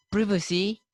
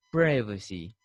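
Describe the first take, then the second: First: Privacy as "PRIV-acy", higher and rising; short i in privacy; British pronunciation. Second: Privacy as "PRY-vacy", low; American pronunciation. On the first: Teacher showing how Britishers say it, privacy as "PRIV-acy". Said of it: "the Britishers say". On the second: Teacher contrasting the American people, privacy as "PRY-vacy". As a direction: eye diphthong in privacy. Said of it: "for the American people". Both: Shown as a demonstration.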